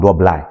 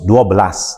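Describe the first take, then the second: First: The word ends in an i sound, northern style. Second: The word ends in an s sound, central style.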